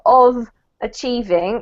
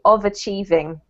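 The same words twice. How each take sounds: First: The two words are said separately, not joined. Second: The final consonant links into the next vowel. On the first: The speaker calls it wrong. "instead of" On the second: The speaker calls it right. "we connect them together"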